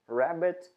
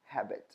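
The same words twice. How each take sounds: First: Rabbit com r inglês; rabbit correto. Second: Habit com h aspirado; habit errado. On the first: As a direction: Rabbit sem som de h. (rabbit dito certo) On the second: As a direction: habit no lugar de Rabbit. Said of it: "a gente pronuncia como habit". (habit, o r virando h) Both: Shown as a demonstration.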